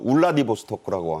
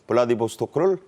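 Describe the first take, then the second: First: The name begins with an 'oo' sound. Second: The name begins with a 'b' sound. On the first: This is the Russian-style form used in North Korea. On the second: This is the usual South Korean form of the name.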